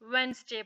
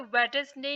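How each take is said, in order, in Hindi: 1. बीच में d silent है। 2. बीच में d जैसा व्यंजन बोला जाता है। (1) "बल्कि वेंसडे पढ़ेंगे" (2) "यहाँ पे वेटसडे नहीं पढ़ेंगे"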